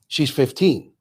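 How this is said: It is said as a flat statement, falling.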